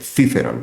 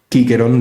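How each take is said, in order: First: The name begins with a soft c sound. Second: The name begins with a hard k sound. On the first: "hispánica o mozárabe, que es la que dice" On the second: This is the classical Roman pronunciation. "en vez de"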